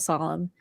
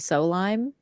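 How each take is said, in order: First: The second syllable sounds like 'lum'. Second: The second syllable sounds like 'lime'. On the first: This is the intended pronunciation of the name. The speaker calls it right. "how you actually spell solemn, and that's how they pronounce it" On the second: The automatic detection read the spelling literally. The speaker calls it wrong. "it automatically wanted to say so lime"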